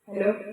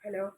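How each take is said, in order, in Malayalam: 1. സ്പീക്കറിന്റെ ശബ്ദം പൂർണ്ണമായും ഉച്ചത്തിലാണ്. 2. സ്പീക്കറിന്റെ ശബ്ദം കുറച്ചിട്ടിരിക്കുന്നു, ഏതാണ്ട് നിശ്ബ്ദമാണ്. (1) "മൈക്കിൻ്റെ മാക്സിമം വോളിയം ഇതാണ്" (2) "സൗണ്ട് കൂട്ടാതെ നമുക്ക് ഇങ്ങനെ ആക്കി"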